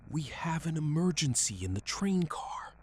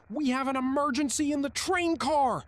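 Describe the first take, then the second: First: Raised, higher and louder call for help; restrained shout. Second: Very high, very loud emergency yell; full yell. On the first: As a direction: call out an alarm without a full yell. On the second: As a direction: scream it into the intercom at full force. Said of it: "and yelled". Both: A narrator's reading.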